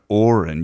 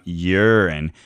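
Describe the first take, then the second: First: The word begins with a vowel, like aura. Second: The word begins with a y sound, like yuck. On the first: It sounds kind and subtly powerful. The speaker calls it right. "your mouth must form the same shape as when you begin making the sound aura" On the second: It sounds cold, scientific and vulgar. The speaker calls it wrong. "your mouth must form the same shape as when you begin making the sound yuck"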